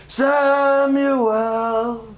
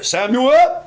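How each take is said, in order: First: High, long-drawn call; familiar calling voice. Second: High, loud, short call rising at the end; stranger's voice. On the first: Preacher showing the voice Samuel knows, long high call. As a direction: hold the name out slowly on one high note. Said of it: "The voice I know is". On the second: Preacher showing a stranger calling Samuel, short rising shout. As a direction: call the name briskly and lift the ending. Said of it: "that's a stranger's voice". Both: Shown as a demonstration.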